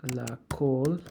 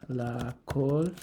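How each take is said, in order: No difference in how they are said.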